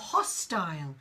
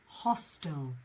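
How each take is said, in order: First: It is said with a British pronunciation. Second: It is said with an American pronunciation. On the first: "In British English, you will hear more often hostile" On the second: "compared to American English, which is hostile"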